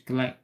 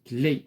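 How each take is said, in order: First: The vowel is said like a plain unaccented e. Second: The vowel is said as a closed é sound. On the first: The speaker calls it wrong. "منقولوش كلي" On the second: The speaker calls it right. "l'accent aigu comme dans clé"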